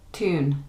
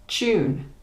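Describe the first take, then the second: First: American "tune" with a plain t; "tune" starting like "too"; American pronunciation. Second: British "Tune" with a ch sound; higher, "Tune" starting like "chew"; British pronunciation. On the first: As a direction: say "tune" as TOON. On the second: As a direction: say "Tune" as CHOON. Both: Shown as a demonstration. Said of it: "next to each other to hear the difference".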